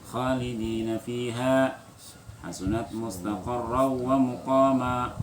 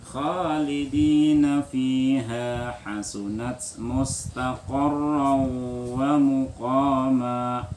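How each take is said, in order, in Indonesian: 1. Dibaca dengan cepat, bunyi panjangnya dipendekkan. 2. Dibaca dengan lambat, bunyi panjangnya ditahan.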